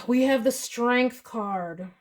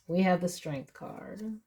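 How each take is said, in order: First: Sigh, then "We have the Strength card" slow and drawn out; sigh then slow line. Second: Said in the usual way. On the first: Real, not acted. Reading card, sighs, repeats.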